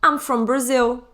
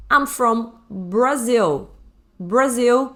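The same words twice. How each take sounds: First: Said in the usual way. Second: I'm from Brazil stretched out slowly; slow model sentence. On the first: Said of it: "Você pode falar assim". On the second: Shown as a demonstration. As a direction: spell it out slowly for learners. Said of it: "é pronunciado assim". (bem devagar, com Brazil claro)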